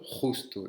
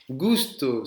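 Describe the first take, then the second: First: Justo with a rough throat sound at the start; justo, J raclé au fond de la gorge; throaty jota. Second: Gusto with a hard G, like in go; Gusto, G dur comme dans gare. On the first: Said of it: "et ça avec un R". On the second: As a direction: say Gusto with a clear hard G sound. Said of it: "Je vous ai prononcé un G". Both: Shown as a demonstration.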